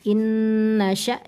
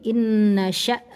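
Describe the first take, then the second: The two takes are said the same way.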